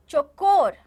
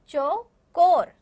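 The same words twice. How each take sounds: First: Said in the usual way. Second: चौकोर slow and loud, split after चौ; teacher breaking चौकोर apart for learners; syllable by syllable. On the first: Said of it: "एक बार मैं बोलूँगी". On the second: Shown as a demonstration. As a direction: say चौ, pause, then a long कोर. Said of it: "आप मेरे पीछे बोलेंगे".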